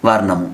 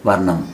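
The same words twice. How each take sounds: The two takes are said the same way.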